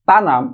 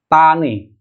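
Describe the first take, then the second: First: The word ends with an am sound. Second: The word ends with an e vowel. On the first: "berakhiran kata am" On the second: "akan dirubah menjadi tane"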